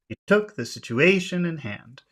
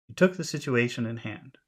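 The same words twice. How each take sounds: First: The rhythm is strongly exaggerated and marked. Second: The rhythm is subtle, smooth and natural. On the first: "we're exaggerating" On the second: "That's more natural"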